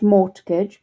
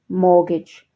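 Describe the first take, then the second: First: The T in the middle is pronounced. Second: The T in the middle is silent. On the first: The speaker calls it wrong. "not mortgage" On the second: The speaker calls it right. "there's a silent T there, but mortgage"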